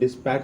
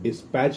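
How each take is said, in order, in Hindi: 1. शब्द 'k' ध्वनि पर खत्म होता है। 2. शब्द 'ch' ध्वनि पर खत्म होता है। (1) "डिस्पैक बोली है तुम इसको" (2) "डिस्पैच लिखा होता है"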